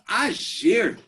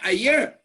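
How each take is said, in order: First: It is said with an Argentinian accent. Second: It is said with a standard Spanish accent. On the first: The speaker calls it wrong. "But in Argentinian, agir" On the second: The speaker calls it right. "Then we say ayer"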